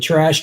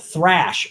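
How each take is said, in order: First: The word starts with a plain t sound. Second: The word starts with a th sound. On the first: The speaker calls it wrong. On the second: The speaker calls it right.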